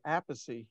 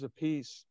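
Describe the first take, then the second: First: The name ends with two syllables, 'pah-see'. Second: The name ends with a single 'peace' syllable. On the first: This is the speaker's own way of saying the name. "but I say apacy" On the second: This is a relative's way of saying the name. "Carmine says a piece"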